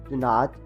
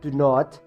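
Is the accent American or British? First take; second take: American; British. First: It is said in an American accent. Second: It is said in a British accent. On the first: "In American, we say do not" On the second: "do not in British"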